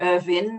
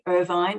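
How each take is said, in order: First: The name is said the Scottish way. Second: The name is said the non-Scottish way. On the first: "I default to Irvine, which is the, you know, the Scottish pronunciation" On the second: "as I've come to learn to say it"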